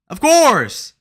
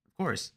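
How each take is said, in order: First: High, loud outburst; emphatic shout. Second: Soft, offhand agreement; understated aside. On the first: Acted. Streamer repeating his agreement, shouting it out. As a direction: holler it, drawing out the last word. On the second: Real, not acted. Streamer agreeing with his own joke, softly. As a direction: toss it off softly. Says it low, then shouts.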